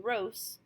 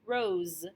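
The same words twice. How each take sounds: First: The middle consonant is a hissing S sound. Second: The middle consonant is a buzzing Z sound. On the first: The speaker calls it wrong. "We don't say rose" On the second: The speaker calls it right. "we hear the Z in between the O and the E"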